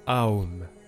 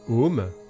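First: The word starts on A, gliding into O. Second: The word starts directly on an O vowel. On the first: "ou alors en 3 étapes" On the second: "Om peut se prononcer Om"

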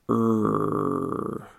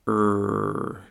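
First: The sound is drawn out very slowly. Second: The sound is said a bit faster. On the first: "first, slow"

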